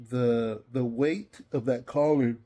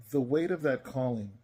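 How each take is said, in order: First: Said through a yawn; tired, yawning through the words. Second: Said in the usual way. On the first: Real, not acted. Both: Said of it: "Man, I guess I'm tired".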